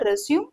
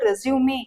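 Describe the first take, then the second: First: The word ends on a final m sound. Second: The word ends on a final ay vowel. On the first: It is the verb meaning to continue. "இதோட pronunciation பாருங்க ரெஸ்யூம் இது வந்து verb" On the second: It is the noun meaning a CV. "ரெஸ்யூமே அப்படின்னு நம்ம சொன்னோம்னா noun அப்படின்னு அர்த்தம்"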